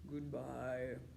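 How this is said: It is said in a very low voice.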